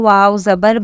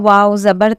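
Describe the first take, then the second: The two takes are said the same way.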